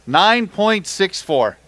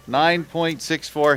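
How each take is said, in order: First: "Nine point six four" slow and higher, stretched out; announcer call. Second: Said in the usual way. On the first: Acted. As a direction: boom the weight out to the crowd. Announcing the weight to crowd.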